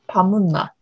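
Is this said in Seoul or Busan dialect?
Busan. It is said in Busan dialect.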